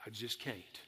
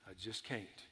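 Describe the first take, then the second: First: Quiet, defeated sigh of giving up. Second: The repeat fades even softer, almost gone; fading defeat. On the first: Preacher voicing a worn-out believer giving up, quiet and defeated. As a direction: let it sink, softer and lower, out of strength. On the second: Preacher echoing the hopeless believer, fading to a near hush. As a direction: let the last one barely come out, emptied. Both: Retold or imitated.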